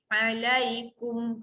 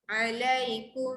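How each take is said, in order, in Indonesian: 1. M akhir ditekan kuat, bibir tertutup rapat. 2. M akhir lembut, bibir hampir tidak tertutup. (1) "Kalau berat pada mim, tu bacaan berat" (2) "kum lembut je"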